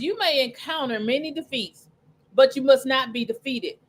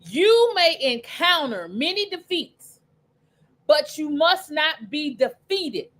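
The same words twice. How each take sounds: First: It is said at a faster pace. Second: It is said at a slower pace.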